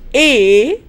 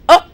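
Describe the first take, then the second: First: The word has a full, strong vowel. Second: The word has a reduced, weak vowel. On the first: "list of strong forms" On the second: "weak form"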